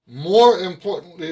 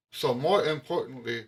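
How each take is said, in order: First: "More importantly" punched much louder, with MORE stressed; emphatic. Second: Said in the usual way. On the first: Shown as a demonstration. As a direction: hit "More" hard and loud to open the point.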